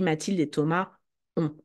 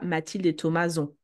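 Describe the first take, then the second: First: No z sound links Thomas to ont. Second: A z sound links Thomas to ont. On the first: The speaker calls it right. "On dit" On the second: The speaker calls it wrong. "on ne dit pas"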